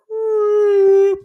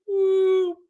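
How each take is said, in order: First: High, loud whoop of a perfect drive. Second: High whoop of a perfect drive. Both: Retold or imitated. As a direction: sing out the ball flying. Mimicking a golf drive.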